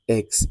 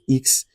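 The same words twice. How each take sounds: First: The letter is said as in English. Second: The letter is said as in French. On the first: "What you know as x" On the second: "is pronounced as x in French"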